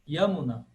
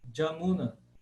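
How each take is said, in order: First: The name begins with a Y sound. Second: The name begins with a J sound. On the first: This is the classical Sanskrit pronunciation. "em sânscrito clássico, Yamuna" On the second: This is the contemporary regional pronunciation. "na Bengala, hoje, se fala, de fato, Jamuna"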